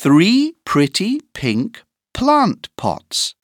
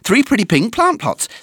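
First: The sentence is said at a moderate speed. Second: The sentence is said at a very fast speed.

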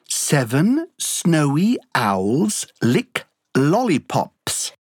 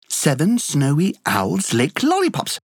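First: It is said at a slow, careful pace. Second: It is said faster than the first time.

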